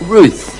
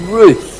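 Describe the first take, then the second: No difference in how they are said.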